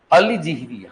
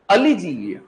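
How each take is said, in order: First: अलीजीवी said ending in a plain ई, no य; corrected pronunciation. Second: अलीजीवीय said with a final ईय ending; अलीजीवीय ending in ईय, a trial take; first try pronounced. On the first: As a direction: settle on अलीजीवी with a clean ई ending. (अलीजीवी को बिना य के सही बोलना) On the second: (अलीजीवीय को ईय के साथ बोलना) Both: Shown as a demonstration. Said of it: "मैं ठीक बोल रहा हूँ क्या?".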